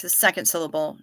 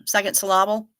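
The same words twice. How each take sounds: First: Said in the usual way. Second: Syllable said as sy-LLA-ble, middle part pushed; stress on the second syllable. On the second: Shown as a demonstration. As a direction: put the weight on LLA in syllable.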